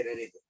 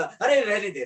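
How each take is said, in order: First: Low, soft, falling away; hushed relenting. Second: Higher "stop, let it be"; urgent intervention. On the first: Baba calling off the goat's killing, hushed relenting. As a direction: drop to a gentle low murmur. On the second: Baba halting the man about to strike, urgent intervention. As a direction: call off the blow urgently. Baba stops the sacrifice, first cry. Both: Acted.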